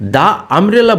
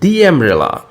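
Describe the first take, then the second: First: The article is said with a short uh vowel. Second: The article is said with an ee vowel. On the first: The speaker calls it wrong. "দা umbrella না বলে" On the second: The speaker calls it right. "বলবো দি umbrella"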